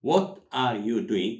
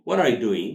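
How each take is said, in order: First: Slow, each word set apart; slow word-by-word model. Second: Louder, words run together; natural linked delivery. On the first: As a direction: spell out the phrase for learners, slowly. Teacher says it word by word. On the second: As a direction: model it as one connected phrase. Teacher says it linked. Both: Shown as a demonstration.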